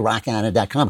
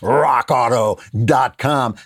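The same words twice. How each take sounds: First: It is said flatly, without energy. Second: It is said with strong energy.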